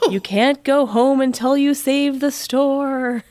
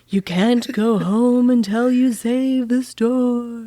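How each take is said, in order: First: It is read in a plain, normal voice. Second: It is said in a spooky put-on voice.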